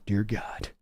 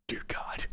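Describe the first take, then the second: First: A quiet groan of dismay at the pick; low dismayed murmur. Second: Breathless, voiceless whisper; a real whispered cry of despair. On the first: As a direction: drop low and soft in despair. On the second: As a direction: whisper it like a near sob. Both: Real, not acted. Dismay at a bad draft pick.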